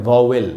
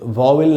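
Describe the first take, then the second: No difference in how they are said.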